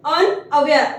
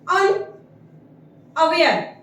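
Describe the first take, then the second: First: Said in the usual way. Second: Very slow, drawn-out syllables; slow model word. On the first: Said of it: "repeats word at normal pace". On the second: Shown as a demonstration. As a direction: spell it out syllable by syllable. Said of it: "teacher pronounces word slowly".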